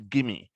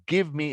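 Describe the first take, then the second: First: The two words are blended into one reduced word. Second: The two words are said fully and separately. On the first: "into gimme" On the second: "and give me"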